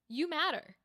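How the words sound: It is said in a serious, grounded tone.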